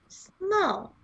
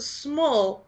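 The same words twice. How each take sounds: First: The word is said with heavy, exaggerated emphasis. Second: The word is said plainly, without extra force. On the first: She is extremely, notably tiny. "not capital S small" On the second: She is only somewhat little. "She's just small"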